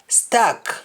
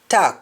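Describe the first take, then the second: First: The word begins with an s sound. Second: The word begins with a t sound. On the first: "words that start with S T" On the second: "In Jamaican, the S T in most cases changes to T"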